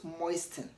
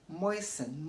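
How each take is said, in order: First: A T sound is pronounced in the middle. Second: The T sound is silent in the middle. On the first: The speaker calls it wrong. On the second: The speaker calls it right.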